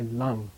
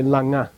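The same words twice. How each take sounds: First: Lang, one syllable ending on ng; suffix vowel dropped. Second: Langa, with a full "a" after the ng; wrong two-syllable reading. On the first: Teacher showing students the right reading, one-syllable lang. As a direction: end "lang" on the ng, no vowel after it. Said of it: "you say lang". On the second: Teacher showing students what not to say, two-syllable langa. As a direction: sound both syllables of "langa", lan-ga. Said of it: "You don't say langa". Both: Shown as a demonstration.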